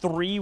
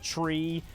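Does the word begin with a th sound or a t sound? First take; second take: th sound; t sound. First: The word begins with a th sound. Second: The word begins with a t sound.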